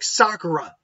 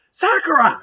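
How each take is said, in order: First: The name is said quietly and firmly. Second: The name is yelled loudly.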